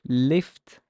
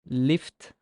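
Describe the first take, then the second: No difference in how they are said.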